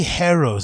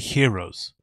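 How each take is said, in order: First: The first syllable sounds like 'hair'. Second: The first syllable sounds like 'here'. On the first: It mimics another person's odd pronunciation. The speaker calls it wrong. "How do you say heroes" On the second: It is the usual pronunciation. The speaker calls it right. "and not just say heroes?"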